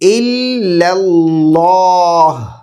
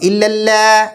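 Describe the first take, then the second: First: The l in Allah sounds heavy and thick. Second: The l in Allah sounds light and thin. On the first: The speaker calls it right. "लाम है उसको मोटा पढ़ेंगे" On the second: The speaker calls it wrong. "इल्लल्लाह नहीं बोलेंगे"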